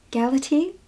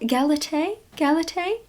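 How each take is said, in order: First: Galatee said GAL-uh-tee, rising like a question; second pronunciation guess. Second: Galatee said gal-uh-TAY, rising like a question; unsure pronunciation. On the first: Reader correcting a guess at a title, Galatee as a questioning GAL-uh-tee. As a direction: try "Galatee" with a final TEE, unsure. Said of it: "probably not". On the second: Reader guessing at a title, Galatee as a questioning gal-uh-TAY. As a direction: try "Galatee" with a final TAY, higher and unsure. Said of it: "how do you pronounce that?". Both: Shown as a demonstration.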